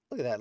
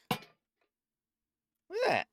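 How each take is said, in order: First: Said in the usual way. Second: Squeaky, slow "Look at that!"; silly high drawn-out exclaim. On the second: Pretend. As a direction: stretch it out in a cartoon squeak.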